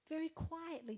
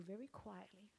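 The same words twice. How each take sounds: First: Said in the usual way. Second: Very quietly. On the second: Shown as a demonstration. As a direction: drop to a soft, hushed murmur. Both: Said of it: "just like I'm talking to you".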